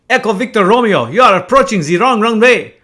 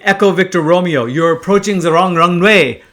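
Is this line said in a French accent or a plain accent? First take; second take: French; plain. First: It is said in a put-on French accent. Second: It is said in the speaker's ordinary accent.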